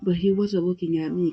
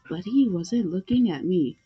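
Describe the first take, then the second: First: It is read in the speaker's ordinary voice. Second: It is read in a put-on character voice.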